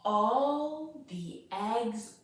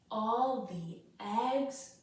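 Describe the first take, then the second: Both takes have the same delivery.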